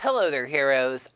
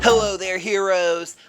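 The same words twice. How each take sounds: First: It is said in the speaker's own natural voice. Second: It is said in a put-on cartoon character voice. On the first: The speaker is speaking as themselves. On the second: The speaker is playing a cartoon character.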